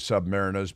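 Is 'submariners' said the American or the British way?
British. It is said with the British pronunciation. "The British call submariners submariners"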